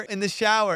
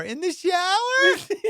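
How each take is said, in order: First: Said in the usual way. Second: Very high, drawn-out question; incredulous. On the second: Retold or imitated. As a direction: imitate her slow, squeaky disbelief. Imitates her incredulous echo.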